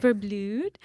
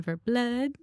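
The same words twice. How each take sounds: First: "Verblud" ending in a long oo; corrected pronunciation. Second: "Verblud" ending like English "blood"; mistaken pronunciation. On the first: Shown as a demonstration. Host echoing the actress's correction, "Verblud" with long oo. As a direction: repeat "Verblud" so it rhymes with "food". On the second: Real, not acted. Host introducing the actress by surname, unsure pronunciation of "Verblud" rhyming with "blood". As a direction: say "Verblud" with a short uh, as in "mud". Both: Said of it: "Is that how you say it".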